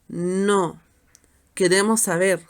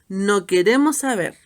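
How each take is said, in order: First: There is a short pause after "no". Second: It flows straight on with no pause. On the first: We do want to know. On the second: We do not want to know anything.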